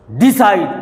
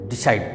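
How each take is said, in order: First: decide with DEE punched hard; stress on first syllable. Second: decide with a quick soft DI into SIDE; stress on second syllable. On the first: Teacher showing how nobody says it, first syllable stressed. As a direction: wrongly push DEE in decide. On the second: Teacher giving the natural way, second syllable stressed. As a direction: keep DI light, land on SIDE. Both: Shown as a demonstration. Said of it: "ऐसे तो बोलते नहीं".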